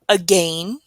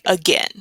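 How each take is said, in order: First: The second syllable rhymes with 'rain'. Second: The second syllable rhymes with 'ten'. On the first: It helps recall the spelling of the word. "some people say again. So if you want to help remember that A I in the middle here" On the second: It is the usual everyday pronunciation. "but most people say again"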